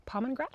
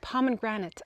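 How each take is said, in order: First: "Pomegranate" said unsurely as "pomen-grat", rising; mispronounced word. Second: "Pomegranate" as "pomen-gran-it", falling; corrected pronunciation. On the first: Host checking how to say it, mispronouncing "Pomegranate" as "pomen-grat". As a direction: stumble on "Pomegranate", n for g, questioning lift. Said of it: "I always say it wrong". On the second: Host copying the co-host's correction, "Pomegranate" ending firmly in -gran-it. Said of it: "How do you say it?". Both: Real, not acted.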